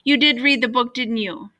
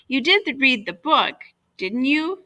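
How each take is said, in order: First: There is no pause before the tag. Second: There is a pause before the tag.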